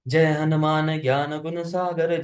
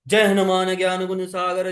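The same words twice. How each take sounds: First: It is recited in a soft, gentle manner. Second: It is recited in a bold, heroic manner. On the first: "सौम्य रस मतलब" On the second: "फिर वीर रस है"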